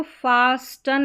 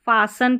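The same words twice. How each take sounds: First: फास्टन with the T sounded; wrong pronunciation. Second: फासन with no T sound; silent T. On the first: Teacher warns students off a misreading, फास्टन with T pronounced. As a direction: pronounce the T in फास्टन, as a mistake to avoid. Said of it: "इसको फास्टन नहीं पढ़ना है". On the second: Teacher shows students the correct reading, फासन with silent T. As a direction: drop the T entirely, saying फासन. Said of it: "फासन पढ़ना है". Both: Shown as a demonstration.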